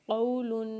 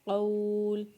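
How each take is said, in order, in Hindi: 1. यह शब्द un ध्वनि पर समाप्त होता है। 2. यह शब्द सादे l ध्वनि पर समाप्त होता है।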